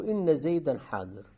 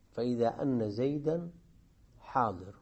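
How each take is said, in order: First: إن said inna with an "i"; hamza with kasra. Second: أن said anna with an "a"; hamza with fatha. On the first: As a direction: start إن on a kasra, inna zaydan. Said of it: "فتح الهمزة وكسرها". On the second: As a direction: start أن on a fatha, anna zaydan. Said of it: "الفتح". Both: Shown as a demonstration.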